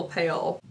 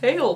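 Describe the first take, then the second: First: Pale repeated softer and lower; quiet echo. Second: Said in the usual way. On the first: Shown as a demonstration. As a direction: drop pale low and soft as an echo.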